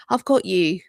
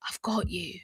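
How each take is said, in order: First: Light London Cockney twang. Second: Soft Cockney whisper of I've got you. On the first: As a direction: say it like a cheeky Cockney. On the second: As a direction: breathe it out in a London Cockney lilt. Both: Shown as a demonstration. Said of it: "I just went a bit London Cockney".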